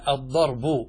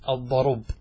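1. الراء ساكنة، والباء الأخيرة تحمل الضمة. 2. الراء تحمل الضمة، والباء الأخيرة ساكنة. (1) "هذا أصله" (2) "انقل حركة الباء التي هي الضمة، انقلها إلى الراء وسكن الباء"

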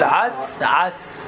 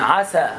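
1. السين مغلقة ولا يليها حرف علة. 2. يليه حركة مفتوحة. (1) "قل عس عس" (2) "لا تفتح السين"

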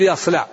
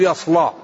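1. يُنطق حرف اللام مرققاً ونحيفاً. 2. يُنطق حرف اللام مفخماً وثخيناً. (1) "إخراج حرف اللام مرققة" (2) "لا بد يقول يصلى"

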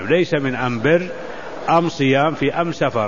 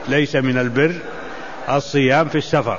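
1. تُنطق أداة التعريف am. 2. تُنطق أداة التعريف al.

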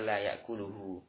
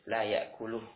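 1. Kata ini berakhir dengan vokal akhir yang dipanjangkan. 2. Kata ini berakhir pendek, tanpa vokal akhir. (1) "Enggak boleh dibaca layakuluhu" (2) "tapi baca pendek"

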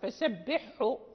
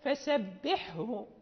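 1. يُسمع الحاء المشددة ḥ فقط دون الهاء h. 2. يُنطق الحاء ḥ والهاء h كلاهما بوضوح.

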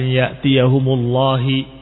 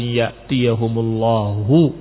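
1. Kata ini berakhir dengan vokal i pendek. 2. Kata ini berakhir dengan vokal u pendek. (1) "maka niscaya akan dibaca lafdul jalalah dengan kasrah" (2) "dengan dhammah"

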